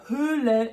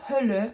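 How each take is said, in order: First: "Höhle" with a slow, held ö; long Ö. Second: "Hölle" with a brief open ö; short Ö. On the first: Teacher naming the cave, long ö in "Höhle". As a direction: stretch the first vowel of "Höhle". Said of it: "le E est long". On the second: Teacher naming hell, short ö in "Hölle". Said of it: "donc un E court". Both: Shown as a demonstration.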